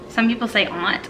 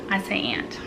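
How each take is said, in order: First: "aunt" with a broad ah vowel, like "ahnt"; "aunt" as others say it. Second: "aunt" with the flat a of "ant"; "aunt" as she says it. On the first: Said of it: "Some people say aunt, I know". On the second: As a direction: her own "aunt", rhyming with "pant". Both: Shown as a demonstration.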